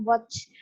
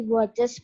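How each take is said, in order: First: "watch" with a bare S stuck on, "watchs"; wrong pronunciation. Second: Said in the usual way. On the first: Shown as a demonstration. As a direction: end "watch" in a hiss with no extra syllable. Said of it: "bukan watch, tinggal tambah S". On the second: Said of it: "dia akan jadi watches".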